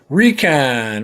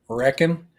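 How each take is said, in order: First: It sounds like 'ree-con', with a full second vowel. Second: It sounds like the everyday word 'reckon'. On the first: This is how people where the speaker is from say it. "we say recon where I'm from" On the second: This is how people in Texas say it. "That's what you say in Texas"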